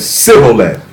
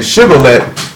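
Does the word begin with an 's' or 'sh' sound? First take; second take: s; sh. First: The word begins with an 's' sound. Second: The word begins with a 'sh' sound. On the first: The speaker is from that tribe. The speaker calls it wrong. "he said Sibboleth. Same word, different pronunciation" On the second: The speaker is not from that tribe. The speaker calls it right. "instead of saying Shibboleth"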